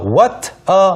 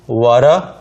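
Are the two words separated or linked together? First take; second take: separated; linked. First: The two words are said separately. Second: The two words run together as one. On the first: The speaker calls it wrong. "what a mess가 아니라" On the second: The speaker calls it right. "what과 a가 연음이 됩니다"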